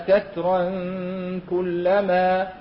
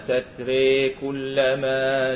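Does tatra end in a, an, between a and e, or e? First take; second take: an; e. First: The word ends in a nasalized -an before kullama. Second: The final vowel is bent fully toward an e. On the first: "يقرون في حال وصل بحكم إيش؟ تنوين بعده حرف الكاف حكم الإخفاء" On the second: "الإمالة قولا واحدا"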